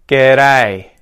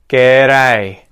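Both takes have the same delivery.

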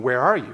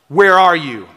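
First: It sounds puzzled, as if not knowing where. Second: It sounds like a stern, scolding father.

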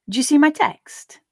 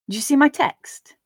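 Both takes have the same delivery.

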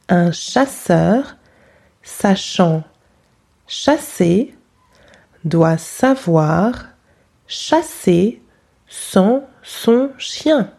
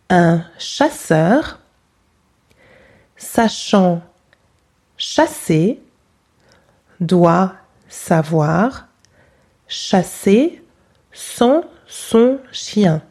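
No difference in how they are said.

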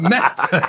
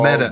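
First: The middle consonant is a crisp, sharp T. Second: The middle consonant is a soft D-like sound. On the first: "It's angular. ... It's kind of angry" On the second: "You just make that T a D"

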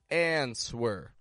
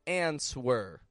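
First: The word is said with a W sound in the middle. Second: The same.

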